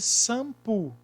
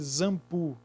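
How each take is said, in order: First: The word begins with an s sound. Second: The word begins with a z sound. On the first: "Tem som de S? Não, porque seria sampo" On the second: "Tem som de Z? Não, porque seria zampu"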